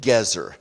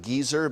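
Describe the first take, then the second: First: The name is said the Hebrew way. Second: The name is said the common English way. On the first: It sounds less prejudicial. The speaker calls it right. "I prefer the Hebrew pronunciation Gezer" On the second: It sounds like an impolite term for an older person. The speaker calls it wrong. "We often pronounce it Gezer"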